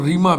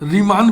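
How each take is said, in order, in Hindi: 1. नाम स्वर पर खत्म होता है। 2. नाम n ध्वनि पर खत्म होता है। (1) "बहुत कम मात्रा में हमको दिखाई पड़ा रीमा" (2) "ज़्यादातर लोग इसको रीमान पढ़ते हैं"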